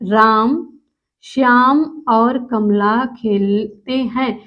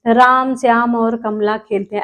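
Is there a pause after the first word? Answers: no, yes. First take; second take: yes; no. First: There is a short pause after the first word. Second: The words run on without any pause. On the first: The speaker calls it right. "दूसरा शब्द बोलने से पहले हम थोड़ी देर के लिए एक सेकंड लिए ठहर जाते हैं" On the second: The speaker calls it wrong. "ऐसे नहीं"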